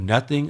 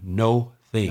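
First: It is said smoothly as one word. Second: It is split into two separate words.

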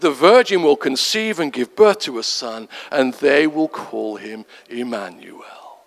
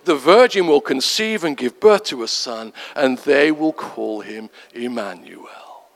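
First: It is read softly and sweetly. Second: It is read softly and sweetly.

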